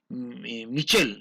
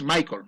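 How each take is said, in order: First: The name is pronounced the French way. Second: The name is pronounced the English way. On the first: "Si vas a decir en francés" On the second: "si vas a decir en inglés"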